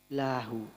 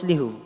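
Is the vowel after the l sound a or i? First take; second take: a; i. First: The vowel after l is a. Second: The vowel after l is i. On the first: The speaker calls it right. "tapi harus dibaca lahu" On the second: The speaker calls it wrong. "tak oleh maos lihu"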